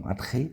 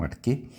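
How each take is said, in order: First: "arche" said ar-RRÊ, with a throaty h sound; guttural ch. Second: "arque" said ar-KÊ, with a plain k; hard k. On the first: Teacher showing how some pronounce it, throaty ch. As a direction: say "arche" with a raspy Greek chi, no k. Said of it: "que alguns falam arche". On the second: Teacher showing how others pronounce it, hard k. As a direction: say "arque" with a hard k in place of the throaty ch. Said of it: "outros falam arque". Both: Shown as a demonstration.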